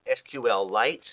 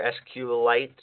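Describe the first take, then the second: First: "S Q L Lite" with each of S, Q, L spelled out; alternative pronunciation. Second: "S Q Lite" with only S and Q spelled out; alternative pronunciation. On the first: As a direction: say "S Q L Lite" as three letters, then the word Lite. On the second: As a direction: say "S Q Lite" with a single L, starting the word Lite. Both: Shown as a demonstration. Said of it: "I don't know how it's pronounced".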